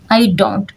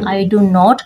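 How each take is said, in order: First: The negative is one weak, unstressed contracted syllable. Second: Do and not are said fully, as two words.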